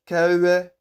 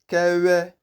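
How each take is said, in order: The two takes are said the same way.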